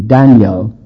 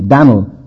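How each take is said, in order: First: The name is said with two syllables. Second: The name is squeezed into one syllable. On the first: This is the English form. "The English word at least two" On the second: This is the older American form. "That's the way Americans pronounced it"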